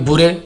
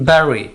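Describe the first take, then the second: First: The first vowel sounds like 'oo'. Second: The first vowel sounds like 'eh'. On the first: The speaker calls it wrong. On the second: The speaker calls it right.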